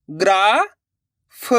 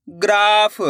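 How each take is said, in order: First: "ग्राफ" split slowly as graa, long pause, pha; sounded out by letters. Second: Said in the usual way. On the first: Shown as a demonstration. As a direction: break "ग्राफ" in two, the first part rising. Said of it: "अक्षर का उच्चारण करके". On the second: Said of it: "तो मिलके बन जाएगा".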